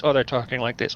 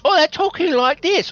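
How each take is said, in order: First: Masterpiece Theater voice. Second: Very high put-on drama voice; Masterpiece Theater voice. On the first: Retold or imitated. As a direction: lower put-on drama voice. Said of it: "everyone's talking like this". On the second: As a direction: mimic a TV theater actor way up high. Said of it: "Masterpiece Theater".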